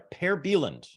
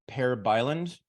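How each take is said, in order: First: The name is pronounced close to its native form. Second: The name is pronounced in an anglicized form. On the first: "that is closer to the real pronunciation" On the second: "what you were often called"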